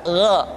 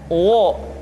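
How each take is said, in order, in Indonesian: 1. Vokal itu diucapkan dengan bibir terbuka. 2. Vokal itu diucapkan dengan bibir membulat. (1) "tapi terbuka" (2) "tidak dimonyongkan"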